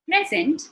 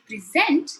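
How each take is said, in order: First: The stress is on the first syllable. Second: The stress is on the second syllable. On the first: It is a noun meaning a gift. "it means a gift" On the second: It is a verb meaning to deliver information. "it is something that I'm delivering"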